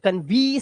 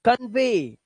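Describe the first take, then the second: First: The word ends with an 'ee' vowel. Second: The word ends with an 'ay' vowel. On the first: The speaker calls it wrong. "अब कन्वी सर्वी नहीं करेंगे" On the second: The speaker calls it right. "आवाज एक ही होगी"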